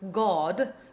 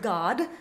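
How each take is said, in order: First: The word has a dark, backward British vowel. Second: The word has an American vowel sound. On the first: "in received pronunciation would be God, with that dark backwards ah sound" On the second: "a very American pronunciation of the word God"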